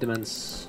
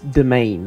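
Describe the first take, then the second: First: The word ends with a 'mence' sound. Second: The word ends with a 'main' sound. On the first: The speaker calls it wrong. "It's not demence" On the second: The speaker calls it right. "It's domain, right?"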